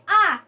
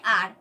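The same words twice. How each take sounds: First: "आ" as a long open vowel, no final R; read form. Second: "आर" with the R sounded at the end; written form. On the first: Teacher contrasting reading with spelling, read-form demo. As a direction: draw out "आ" with nothing after the vowel. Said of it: "इसको पढ़ते हैं". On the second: Teacher contrasting spelling with reading, written-form demo. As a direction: say "आर", closing the long vowel on R. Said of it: "लेकिन लिखते हैं". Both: Shown as a demonstration.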